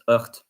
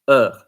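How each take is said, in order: First: The word ends with an audible t sound. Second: The word ends without any t sound. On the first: The speaker calls it wrong. "we don't pronounce it hurt" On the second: The speaker calls it right. "We pronounce it er"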